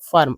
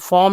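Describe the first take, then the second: First: The vowel is a short, weak 'uh' sound. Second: The vowel is a full, open 'aw' sound. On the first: The speaker calls it right. "यहाँ पर फर्म बोलेंगे" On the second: The speaker calls it wrong. "लेकिन फॉर्म नहीं"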